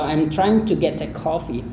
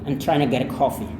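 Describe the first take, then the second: First: Each word is said separately and stiffly. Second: The words are linked and reduced, flowing smoothly. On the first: The speaker calls it wrong. "itu kayak kaku juga sih" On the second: The speaker calls it right. "kalau kayak yang tadi"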